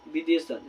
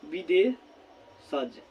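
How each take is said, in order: First: Said in the usual way. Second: विदेशज stretched very slowly, syllable by syllable; drawn-out spelling word. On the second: Shown as a demonstration. Teacher to students, stretching विदेशज slowly for dictation. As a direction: draw out विदेशज slowly for the class to write. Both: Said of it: "तो प्यार साथियों क्या हो जाएगा?".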